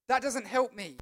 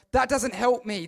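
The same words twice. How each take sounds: First: Said in the usual way. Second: Pushed out louder for emphasis; preacher's emphatic repeat. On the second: Acted. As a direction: lean in and hit it harder. Repeated line, second louder.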